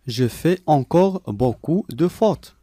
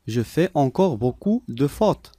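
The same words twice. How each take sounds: The two takes are said the same way.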